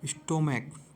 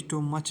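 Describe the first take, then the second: First: The word ends with a 'k' sound. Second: The word ends with a 'ch' sound. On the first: The speaker calls it right. "C H का प्रोनाउंसिएट क्या आ रहा है, का" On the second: The speaker calls it wrong. "इसे स्टोमच नहीं पढ़ेंगे"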